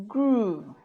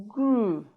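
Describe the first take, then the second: The two takes are said the same way.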